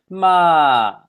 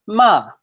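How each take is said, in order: First: The falling syllable is drawn out slowly. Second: The falling syllable is said at normal speed.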